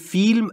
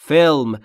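First: The word is said with a Persian pronunciation. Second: The word is said with an English pronunciation. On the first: The speaker calls it wrong. "تو فارسی میگیم فیلم" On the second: The speaker calls it right. "تلفظ درست انگلیسیش اینجوریه"

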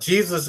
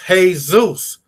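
First: The name is pronounced the English way. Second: The name is pronounced the Spanish way.

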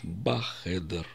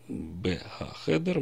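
First: The article merges with the preposition into one syllable. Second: The article syllable is pronounced separately after the preposition. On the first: The speaker calls it right. "у нас сливается определенный артикль и предлог «б»" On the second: The speaker calls it wrong. "условно «б-га-хедер»"

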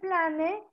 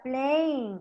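First: It is read out as spelled, like pla-ne. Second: It is said in English, like plein. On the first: This is how the word is written. "Se escribe plane" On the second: This is how the word is pronounced. "pero se pronuncia plane"

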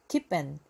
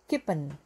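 First: The second word sounds like a short 'an'. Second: The second word sounds like a short 'an'.

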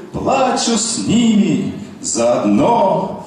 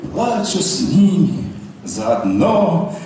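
The two takes are said the same way.

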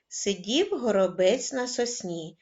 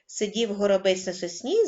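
First: It is spoken at a moderately faster pace. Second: It is spoken at the fastest pace. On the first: "кожного разу пришвидшуючи темп" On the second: "кожного разу пришвидшуючи темп"

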